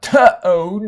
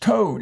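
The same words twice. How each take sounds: First: The t sound is drawn out with an extra vowel. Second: The t sound is short and clipped. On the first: The speaker calls it wrong. "the word toad is not toad" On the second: The speaker calls it right. "it's just toad"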